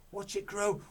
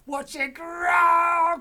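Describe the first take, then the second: First: Higher, louder eager cry; Mister Cranky starts to cheer. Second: Very high, very loud, very slow shout; Mister Cranky shouts in triumph, slow. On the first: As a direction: build the excitement. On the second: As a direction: let the cheer explode. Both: Acted. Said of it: "cried Mister Cranky".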